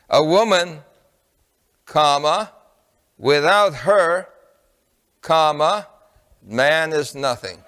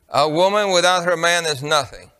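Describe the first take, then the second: First: It is broken by pauses around without her. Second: It is said as one unbroken phrase.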